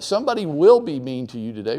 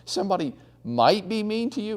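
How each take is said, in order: First: "will" punched firm and loud; stress on will. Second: "might" said with a mocking high lilt; stress on might. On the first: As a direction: hit "will" hard, no doubt left. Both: Shown as a demonstration. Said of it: "take the might out of it".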